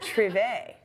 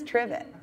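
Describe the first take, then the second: First: The word is said with a French-style ending. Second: The word is said plainly, just as spelled. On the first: The speaker calls it wrong. "which you thought was trivet" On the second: The speaker calls it right. "it turns out it's trivet"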